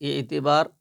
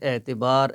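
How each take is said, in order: First: The first vowel is a clear short i. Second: The first vowel is a mid e sound. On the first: "कहीं पर ज़ेर मारूफ़ पढ़ी जाती है" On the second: "इसकी आवाज़ मजहूल होती है"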